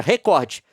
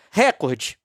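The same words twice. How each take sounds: First: Recorde with stress on cor, re-CÓR-de; paroxytone recorde. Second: Recorde stressed on the first syllable, RÉ-cor-de; proparoxytone recorde. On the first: Showing viewers the correct stress on recorde. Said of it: "pronunciar a palavra recorde como paroxítona". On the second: Showing viewers how Globo says it. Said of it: "usa sistematicamente a pronúncia proparoxítona". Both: Shown as a demonstration.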